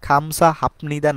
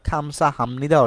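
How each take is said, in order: First: A p sound comes before 'nida'. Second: An m sound comes before 'nida'. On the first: The speaker calls it wrong. "খামসা হাপনিদা না হয়ে" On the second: The speaker calls it right. "আমাদের খামসা হামনিদা অর্থটা প্রকাশ করছে"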